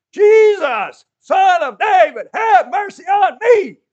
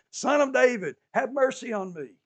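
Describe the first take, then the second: First: Desperate scream, much higher and louder, slow. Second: Raised, higher call through a crowd. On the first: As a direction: scream it with all you have to be heard. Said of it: "He screamed". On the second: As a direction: call out to be heard over people. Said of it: "He called out through the crowd". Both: Retold or imitated.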